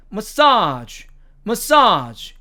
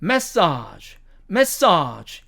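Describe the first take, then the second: First: Massage stressed on the second syllable, muh-SAHZH; American massage, weak first syllable, long SAHZH; American pronunciation. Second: Massage stressed on the first syllable, MASS-ahzh; British massage, full strong MASS at the start; British pronunciation. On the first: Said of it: "미국식 발음으로 가면". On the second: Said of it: "영국식 발음으로 가면". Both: Shown as a demonstration.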